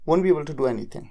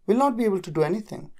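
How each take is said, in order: First: The negative is said as one contracted word. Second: The negative is said as two full words.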